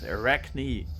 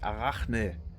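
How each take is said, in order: First: The name is pronounced the English way. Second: The name is pronounced the German way. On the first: "But we're talking English here, so it's Arachne" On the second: "In Germany we would pronounce it Arachne"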